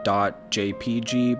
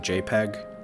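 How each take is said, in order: First: It is said as three separate letters. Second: It is said as one word, jay-peg. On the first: "and then you got the .jpg" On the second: "some people say JPEG. It's not wrong, it's just different"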